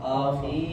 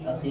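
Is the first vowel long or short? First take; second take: long; short. First: The first vowel is drawn out long. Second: The first vowel is kept short. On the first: "अगर पहले वर्ड को आप बढ़ाएंगे तो फिर ये हो जाएगा आखी" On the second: "इसको नहीं लगाएंगे तो आखी"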